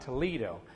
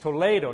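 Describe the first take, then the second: First: The name is pronounced the English way. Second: The name is pronounced the Spanish way. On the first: This is how the Ohio town is named. The speaker calls it wrong. "not Toledo. I was corrected many, many times" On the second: This is how the Spanish town is named. The speaker calls it right. "those of you who speak Spanish, it's Toledo"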